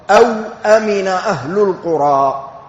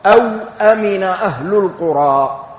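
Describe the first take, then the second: First: A vowelless w, then a glottal stop before amina. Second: A vowelless w, then a glottal stop before amina.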